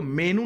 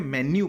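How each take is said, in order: First: "मेनू" ending in a plain "noo"; wrong pronunciation "मेनू". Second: "मेन्यू" ending in a glided "nyoo"; correct pronunciation "मेन्यू". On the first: Teacher shows students the misreading to avoid, "मेनू" said me-noo. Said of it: "इसको मेनू नहीं पढ़ते हैं". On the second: Teacher corrects students' reading of the word, "मेन्यू" said men-yoo. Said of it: "मेन्यू पढ़ते हैं". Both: Shown as a demonstration.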